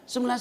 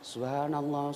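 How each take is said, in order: First: It is said quickly and hurriedly. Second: It is said slowly and clearly. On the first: The remembrance is rushed and pleases the devil. The speaker calls it wrong. "setan malah tambah tepuk tangan" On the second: The remembrance reaches the heart. The speaker calls it right. "Jangan terlalu cepat. Zikir yang bagus"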